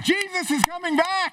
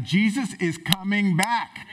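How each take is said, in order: First: Much higher, jubilant declaration; excited proclamation. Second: Said in the usual way. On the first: Shown as a demonstration. Pastor retrying the line for the church, excited. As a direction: proclaim it with joy, lifted up. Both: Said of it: "let me try that again".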